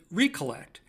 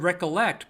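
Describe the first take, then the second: First: The first syllable is a long 'ree'. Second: The first syllable is a short 'rek'. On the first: To collect or bring together again. "but we could pronounce it recollect" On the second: To remember something. "We have the word recollect"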